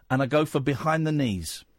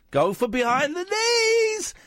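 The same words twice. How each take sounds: First: Said in the usual way. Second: Squealing excited. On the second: Shown as a demonstration.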